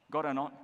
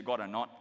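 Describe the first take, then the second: First: Malaysian English tag question, God or not; rising Malaysian God or not, local style. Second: God or not with a rising Malaysian lilt; Malaysian English. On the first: Pastor teaching the congregation Malaysian English, Malaysian lilt. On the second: Pastor showing how Malaysians ask, Malaysian English rise. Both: Shown as a demonstration. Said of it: "Malaysians say".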